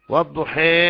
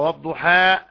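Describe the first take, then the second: First: The final vowel lies between 'a' and 'ee'. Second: The final vowel is a fully open 'a'. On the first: "التقليل فتح الشفاه مع الإمالة" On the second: "فتح الفم بالحرف"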